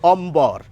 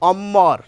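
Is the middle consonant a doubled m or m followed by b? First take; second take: m and b; doubled m. First: An m is followed by a b sound. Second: The m is doubled with no b sound. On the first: The speaker calls it right. "ম এবং ব দুটি বর্ণেরই উচ্চারণ আমরা করি" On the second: The speaker calls it wrong. "এই সূত্র মেনে বলা উচিত ছিল অম্মর, ম দিত্য হবে, কিন্তু না।"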